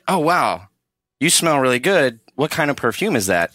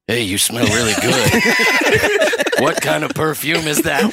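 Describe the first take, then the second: First: It is said in a normal voice. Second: It is said in a creepy voice.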